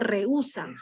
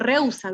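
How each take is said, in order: First: The e and u fall in separate syllables. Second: The e and u merge into one syllable. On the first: The speaker calls it right. "Digo rehúsa" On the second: The speaker calls it wrong. "Yo no digo rehúsa"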